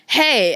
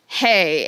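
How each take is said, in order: First: Imitating a cute, lightly raspy hello; a hint of cute rasp in the greeting. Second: Said in the usual way. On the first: Beautiful girl coming in greets the other woman, cute raspy voice. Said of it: "this really cute, like, raspy voice". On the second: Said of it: "And I'm like".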